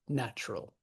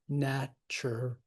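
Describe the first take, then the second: First: The word is squeezed into two syllables. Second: The word is said with three full syllables.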